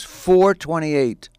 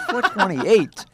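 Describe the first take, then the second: First: Slow, drawn-out exact time; precise retold answer. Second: Laughing, higher-pitched echo question; incredulous. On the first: Friend setting an oddly exact dinner time, slow and precise. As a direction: stretch out each number. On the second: Retold or imitated. Man questioning his friend's odd dinner time, incredulous. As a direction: throw the time back in disbelief.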